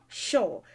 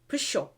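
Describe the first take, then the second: First: The word begins with a sh sound, no P. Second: The word begins with an audible P sound. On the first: "the P was silent" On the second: "They tried to pronounce the P"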